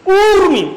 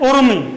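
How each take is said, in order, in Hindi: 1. पहला स्वर लंबा है। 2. पहला स्वर छोटा है। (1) "शब्द होता है ऊर्मी। ऊर्मी शुद्ध बोलो" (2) "बहुत सारे विद्यार्थी क्या है कि इसे उर्मी उर्मी बोलते हैं"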